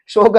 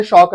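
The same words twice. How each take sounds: First: शौक said as "shok", with a pure long o; closed "o" in शौक, not "au"; contrasting o vowel. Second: शौक said as "shauk", with an open au; contrasting au vowel. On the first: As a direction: round शौक into "shok", like the word for grief. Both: Shown as a demonstration. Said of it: "शौक अलग चीज है".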